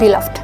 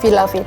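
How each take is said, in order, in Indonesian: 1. Akhirannya menyatu, tanpa tambahan suku kata. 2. Akhirannya diucapkan sebagai tambahan suku kata. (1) "cara bacanya bukan beloved" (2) "tapi beloved"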